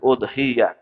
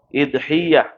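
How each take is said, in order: First: The first vowel is an 'u' sound. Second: The first vowel is an 'i' sound. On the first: "udhiyah itu dengan dhammah hamzahnya" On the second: "begitu juga boleh dengan kasroh"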